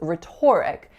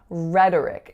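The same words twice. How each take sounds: First: The stress is on the second syllable. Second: The stress is on the first syllable. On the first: The speaker calls it wrong. "I used to think this word was pronounced as" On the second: The speaker calls it right. "we're reducing that O to a schwa"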